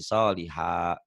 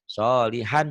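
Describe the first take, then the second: First: The word ends on a lengthened a vowel. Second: The word ends with an n sound. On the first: The reading stops at this word. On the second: The reading continues past this word.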